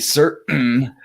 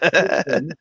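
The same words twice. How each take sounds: First: The middle t sound is dropped. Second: The middle t sound is clearly pronounced. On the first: "we don't say our T's" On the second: "Not certain"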